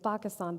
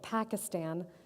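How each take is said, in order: First: It is said with a Pakistani pronunciation. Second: It is said with an American English pronunciation. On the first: "the country of Pakistan" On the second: "mispronouncing the country of Pakistan by calling it Pakistan"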